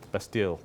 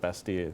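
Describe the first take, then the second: First: It is said with an English pronunciation. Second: It is said with a French pronunciation. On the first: "as we pronounce it" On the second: "in French"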